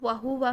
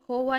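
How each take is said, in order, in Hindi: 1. h के बाद का स्वर u जैसा सुनाई देता है। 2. h के बाद का स्वर o जैसा सुनाई देता है। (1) "वहुवा में" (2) "होवा नहीं करेंगे"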